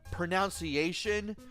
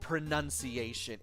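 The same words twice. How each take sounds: First: The second syllable sounds like 'nounce'. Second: The second syllable sounds like 'nun'. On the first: The speaker calls it wrong. "I keep wanting to say it as pronunciation" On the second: The speaker calls it right. "the proper word is pronunciation"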